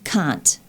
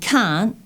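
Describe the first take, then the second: First: The final T sound is crisp and clearly articulated. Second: The final T sound is weak and unclear. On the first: The speaker calls it right. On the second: The speaker calls it wrong.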